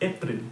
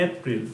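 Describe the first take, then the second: The two takes are said the same way.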